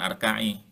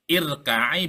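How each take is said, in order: First: The word begins with an a vowel. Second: The word begins with an i vowel. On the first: The speaker calls it wrong. "bukan arka'i" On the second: The speaker calls it right. "war irka'i"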